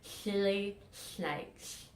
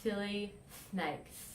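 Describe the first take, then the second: First: "Silly snakes" with wet slushy s, air out the sides; slushy lisp. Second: "Silly snakes" with tongue through teeth, s as th; interdental lisp. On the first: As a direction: lateral lisp, s sounds like sh. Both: Shown as a demonstration. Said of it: "So it would sound something like this".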